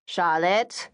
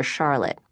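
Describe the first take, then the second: First: Mother calling Charlotte. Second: Said in the usual way. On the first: Acted. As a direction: coax your daughter by name. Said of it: "their mother kept on".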